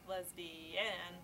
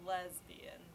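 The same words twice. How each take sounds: First: The stress is on the third syllable. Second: The stress is on the first syllable. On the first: "She put an emphasis on every syllable in turn" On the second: "She put an emphasis on every syllable in turn"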